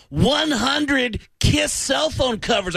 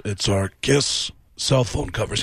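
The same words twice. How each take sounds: First: High, slow, shouting rocker voice. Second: Slow, low deadpan rock star voice; flat, slow sales pitch. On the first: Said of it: "And he said". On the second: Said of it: "And [name] apparently goes". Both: Retold or imitated.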